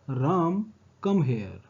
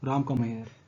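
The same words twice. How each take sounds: First: There is a short pause after Ram. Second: Ram runs straight into come here.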